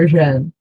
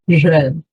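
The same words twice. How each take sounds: First: It begins with an R mixed with a J. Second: The same.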